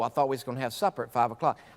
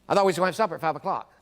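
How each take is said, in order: First: It is said very slowly. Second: It is said very fast.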